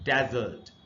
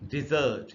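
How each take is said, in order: First: The stress is on the first syllable. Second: The stress is on the second syllable. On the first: It is used as a noun. "पहला जो symbol है इसी पर primary stress" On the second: It is used as a verb meaning to abandon. "दूसरा syllable है ये, यहां पर स्ट्रेस है"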